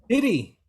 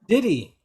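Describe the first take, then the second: No difference in how they are said.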